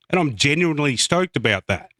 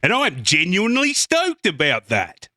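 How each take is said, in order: First: It is said in a plain, flat tone. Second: It is said in an exaggerated, sarcastic tone.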